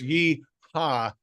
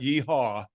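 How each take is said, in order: First: The second syllable has an open 'ah' vowel. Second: The second syllable has a rounded 'aw' vowel. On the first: The speaker calls it right. "it's yee ha" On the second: The speaker calls it wrong. "not yee haw"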